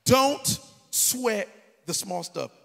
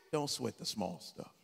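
First: Loud and slow, each word hammered out; preached motto. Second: Lower, softer and slower, a settled mother; calm mother's advice. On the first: Acted. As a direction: preach it big and drawn out to the crowd. Mother's motto, preached to crowd. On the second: Retold or imitated. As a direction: soothe him like Mom does. Mother's calm motto voiced.

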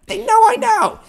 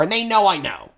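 First: "They know I know" with "I" jumped up high and louder; stress on I. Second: Said in the usual way. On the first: Shown as a demonstration. Telling his friend the other band knows he knows, "I" hit high and loud. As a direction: punch the "I" hard and high. Repeating the point for emphasis.

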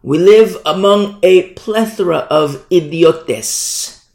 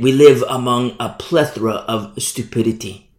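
First: Slow, higher, grand declaration; ringing apostle's pronouncement, drawn out; Paul. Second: Said in the usual way. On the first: Shown as a demonstration. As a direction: proclaim it slowly with a relished foreign word at the end. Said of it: "I'll say it like Paul". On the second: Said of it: "why do you gotta say it like".

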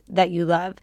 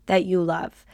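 The two takes are said the same way.

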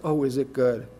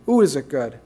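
First: Low murmured question. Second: Said in the usual way. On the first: Real, not acted.

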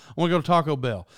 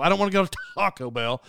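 First: Said in the usual way. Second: Exploded first syllable of "Taco"; mock stress on Taco. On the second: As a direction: spit out an exaggerated "Taco", mocking his way. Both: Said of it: "Why don't you talk normal?".

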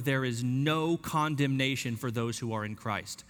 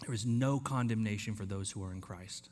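First: Said in the usual way. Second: There is no condemnation, softer and lower; soft, settling repeat. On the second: Shown as a demonstration. Preacher letting it settle in, soft and low. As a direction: let it settle in gently. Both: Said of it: "Let that fall over you".

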